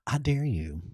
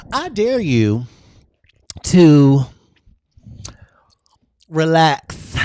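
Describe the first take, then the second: First: Soft dare. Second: Higher and louder, a big excited dare. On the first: To her live viewers, a hushed soft dare. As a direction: drop to a softer, hushed dare. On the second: To her live viewers, a high loud excited dare. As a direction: push the dare out with full energy. Building repeated dares to a peak. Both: Acted.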